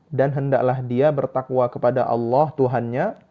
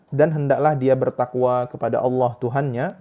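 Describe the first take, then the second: The two takes are said the same way.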